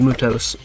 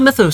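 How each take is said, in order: First: The word is said as 'Mutos', with a 't'. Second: The word is said as 'Mythos', with a 'th'. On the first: The speaker calls it right. "It is actually supposed to be Mutos Reploid" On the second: The speaker calls it wrong. "Not Mythos Reploids like I thought"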